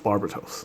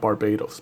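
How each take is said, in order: First: The last syllable begins with a t sound. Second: The last syllable begins with a d sound. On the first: It names the demon. The speaker calls it right. "the proper way to pronounce uh, Barbatos is Barbatos" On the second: It names the country. The speaker calls it wrong. "not Barbados. Barbados is a country"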